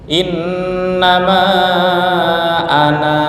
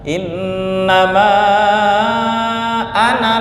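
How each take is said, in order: First: The final vowel of ana is held long. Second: The final vowel of ana is cut short. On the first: The reading stops after this word. "panjang satu alif ketika wakof" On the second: The reading continues without stopping. "Ketika wasal alifnya menjadi hilang"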